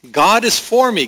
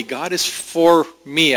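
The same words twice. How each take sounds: First: "God is for me" said high and bright, stressed on "for"; emphatic declaration. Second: Slow affirmation. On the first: Preacher proclaiming to the congregation, high emphatic stress. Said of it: "God's comfort for me here and now". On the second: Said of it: "I hope you can all affirm that". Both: Shown as a demonstration.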